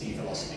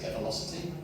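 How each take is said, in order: First: The first syllable is the letter name 'dee'. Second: The first syllable is a short 'deh' sound. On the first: The D is read as a symbol for a reduction. "I always pronounce it dvelocity because normally D means like a reduction" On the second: This is how the makers say the name. "I think they pronounce it develocity"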